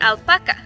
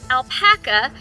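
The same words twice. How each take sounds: First: The word has a Spanish pronunciation. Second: The word has an American English pronunciation. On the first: "the Spanish word alpaca" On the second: "that is the pronunciation used by Americans as well as other English-speaking countries"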